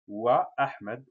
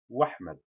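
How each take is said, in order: First: The glottal stop before Ahmed is kept. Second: The glottal stop is dropped, words run together. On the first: The speaker calls it right. "on dit wa Ahmed" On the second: The speaker calls it wrong. "on ne dit pas wahmed"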